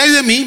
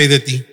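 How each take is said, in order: First: "ay de mí" said higher, as a lament; lament pitched up. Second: "ay de ti" said much lower, settled; dropped low and firm. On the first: Preacher contrasts the two phrases, raising "ay de mí". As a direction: lift "ay de mí" up like a complaint. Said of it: "pero de que sea". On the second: Preacher contrasts the two phrases, dropping "ay de ti" low. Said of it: "mejor que sea". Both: Shown as a demonstration.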